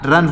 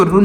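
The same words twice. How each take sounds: First: 'रन' with a short uh vowel; correct vowel demo. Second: 'रुन' with an oo vowel; wrong vowel demo. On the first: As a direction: say 'रन' with u as in cup. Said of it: "क्या, रन पढ़ेंगे". ('रन' बिना मात्रा, छोटे अ के साथ) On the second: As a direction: say 'रुन' with u as in put. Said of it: "इसको रुन नहीं पढ़ेंगे". ('रुन' में उ की मात्रा का उच्चारण) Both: Shown as a demonstration.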